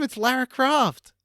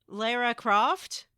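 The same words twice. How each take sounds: First: "Lara" said LAH-ruh, raised and loud; "Lara" with a long British AH. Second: "Lara" said LAIR-uh, slow and questioning; "Lara" with an American LAIR vowel. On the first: Shown as a demonstration. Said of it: "But that's her name". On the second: Retold or imitated. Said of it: "That's not what you said".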